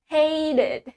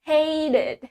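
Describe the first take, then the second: First: American accent, with the T sounding like D. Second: American accent, with the T sounding like D.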